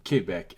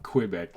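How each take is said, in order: First: The word is said with a French pronunciation. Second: The word is said with an English pronunciation. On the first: The speaker calls it right. "please tell me that you pronounce it Quebec" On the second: The speaker calls it wrong. "like a lot of English native speaking people"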